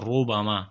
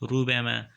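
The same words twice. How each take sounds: First: The r is said with a full, heavy sound. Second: The r is said with a thin, light sound. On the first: The speaker calls it right. "په ډک آواز باندې وایو" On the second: The speaker calls it wrong. "په نري آواز باندې وایي"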